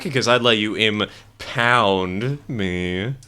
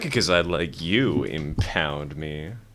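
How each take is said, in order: First: The 'pound' in impound is strongly emphasized. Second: The 'pound' in impound gets no extra emphasis.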